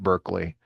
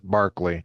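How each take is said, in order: First: The first syllable does not sound like 'bar'. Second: The first syllable sounds like 'bar'. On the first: This is how the place is said. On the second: This is how the philosopher's name is said.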